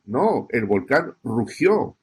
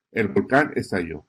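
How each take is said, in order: First: Slow, rugió drawn out and weighted; stress on rugió. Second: Said in the usual way. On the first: Shown as a demonstration. Teacher showing reporters the strong verb "rugió", slow and stressed. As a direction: lean slowly into "rugió" as the key verb. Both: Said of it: "Usa esa palabra, rugió".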